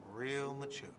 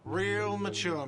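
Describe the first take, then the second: First: Softer resentful repeat of Real mature; sulky mutter. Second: Slow, higher, louder whiny jeer; whiny shout. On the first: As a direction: mutter Real mature under the breath, bitter. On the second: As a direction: drag out Real mature like a sulky whine. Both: Acted. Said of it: "a whiny voice shouts".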